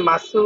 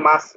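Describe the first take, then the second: First: "মাসু" with a voiced final u; wrong pronunciation "মাসু". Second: "মাস" ending on s, no u; correct pronunciation "মাস". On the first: Teacher warning students off a reading, "মাসু" with final u sounded. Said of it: "মাসু উচ্চারণ হবে না". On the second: Teacher showing students the verb ending, "মাস" closed on s. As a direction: drop the final vowel, "মাস". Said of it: "মাস উচ্চারণ করবেন আপনারা". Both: Shown as a demonstration.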